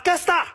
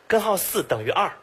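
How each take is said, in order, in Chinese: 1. 大多数音节被吞成了两个含糊的音。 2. 每个音节都清楚、分开地发出来。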